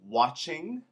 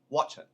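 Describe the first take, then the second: First: The word ends with a full -ing sound. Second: The word ends without the final g sound.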